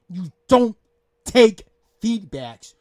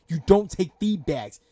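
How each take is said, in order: First: Louder, slow, each word hammered out; emphatic repeat. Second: Said in the usual way. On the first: Real, not acted. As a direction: spell out "You don't take feedbacks" word by word, louder. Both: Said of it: "I'm not gonna repeat myself".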